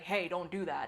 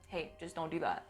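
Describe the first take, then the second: First: The tone is serious and stern. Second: The tone is casual and light.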